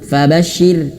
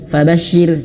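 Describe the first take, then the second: No difference in how they are said.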